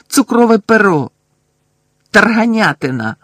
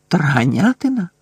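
First: Higher, louder angry yells of passwords; furious shouting. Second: Stunned, questioning echo of "Тарганятина"; surprised repeat. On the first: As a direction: fling each word out in rage, higher and louder. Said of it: "злісно закричав він". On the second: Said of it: "вражено повторив він". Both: A narrator's reading.

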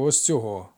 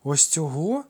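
First: Said in the usual way. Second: Higher, rising question of disbelief; incredulous gasp. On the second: A narrator's reading. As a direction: ask it as if you can't believe it. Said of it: "недовірливо ахнув Ефікл". (недовірливе здивування)

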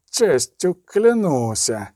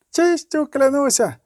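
First: Very slow, stretched-out oath; long, lingering drawl. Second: Put-on high, slow young knight's oath; youthful knight, pitched well up; hoarse young knight. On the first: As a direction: draw each word out at leisure. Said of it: "сказав протягло". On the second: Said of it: "сипів молодим голосом другий". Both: A narrator's reading.

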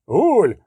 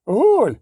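First: "Гуль!" called out high, a first alarm; a frightened gnome spots a ghoul among the stones and cries out; alarmed cry. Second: "Гуль!" again, pitched much higher, more panicked; the second "Гуль!" climbs into panic; the gnome repeats his warning, higher and more frantic; alarmed cry, higher. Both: A narrator's reading. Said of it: "крикнув раптом Перціфель Шутенбах".

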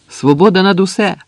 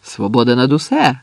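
First: High, loud shouted slogan; ringing high-pitched call; rallying cry. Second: Restrained echo of a slogan; understated chorus response from the trench; answering call. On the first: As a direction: cry it out to rouse the others. Slogan called out to the trench. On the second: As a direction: call it back at near-usual pitch. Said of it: "загукали у відповідь з окопу". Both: A narrator's reading.

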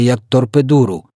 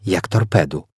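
First: «торпедуру» із зайвим складом «ру»; вимов «торпедуру» замість «торпеду»; перекручене слово. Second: Said in the usual way. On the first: A narrator's reading. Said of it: "«Як торпеду», пояснила Софія". (перекручено «торпедуру») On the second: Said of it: "пояснила Софія".

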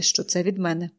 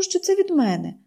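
First: Put-on older woman's voice on що це від мене; aunt's voice. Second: Put-on higher eager girl: що це від мене; from me, brightly; girlish voice on що це від мене; girl's voice. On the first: Aunt says it. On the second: Girl says it.

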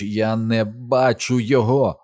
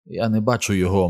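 First: Slow, drawn-out cry on «Я не бачу його»; «Я не бачу його» said slowly, with heavy emphasis on each word; distressed insistence. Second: Said in the usual way. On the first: A narrator's reading. Same words repeated in distress. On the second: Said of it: "мовив Біл".

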